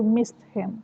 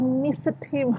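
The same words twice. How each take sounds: First: The ending is a plain t sound. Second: The ending is an extra syllable. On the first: The speaker calls it right. "but you missed him" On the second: The speaker calls it wrong. "No, no, you don't pronounce it like that"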